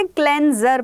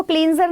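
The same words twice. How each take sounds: First: क्लेंजर with a short "e" vowel; first vowel of क्लेंजर as in "pen"; correct cleanser pronunciation. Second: क्लींजर with a long "ee" vowel; first vowel of क्लींजर stretched to "ee"; mispronounced cleanser. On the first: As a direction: say क्लेंजर as "klen-zer". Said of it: "क्लेंजर पढ़ते हैं". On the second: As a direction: say क्लींजर wrongly, like "kleen-zer". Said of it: "इसको क्लींजर नहीं पढ़ते". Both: Shown as a demonstration.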